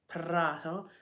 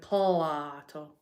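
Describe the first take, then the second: First: The word is said with an R sound. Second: The word is said with an L sound. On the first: This is the standard local pronunciation. "instead of saying Prato" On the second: This imitates how Chinese speakers in Italy say it. "they can't say the R, so they go Plato"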